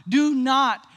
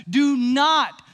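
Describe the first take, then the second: No difference in how they are said.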